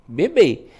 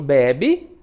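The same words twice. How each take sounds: First: Bebê with the final bê stressed, closed ê; stress on the last syllable. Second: Bebe with the first be stressed, open e; stress on the first syllable. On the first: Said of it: "é a última". (bebê com a última sílaba tônica) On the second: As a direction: punch the first syllable of bebe, let the last drop. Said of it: "é a penúltima". (bebe com a penúltima sílaba tônica) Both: Shown as a demonstration.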